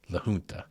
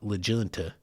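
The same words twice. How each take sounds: First: The name is said with a Spanish pronunciation. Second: The name is said with an English-style pronunciation. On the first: The speaker calls it right. "That is that proper Spanish pronunciation" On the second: The speaker calls it wrong. "It's not La Junta"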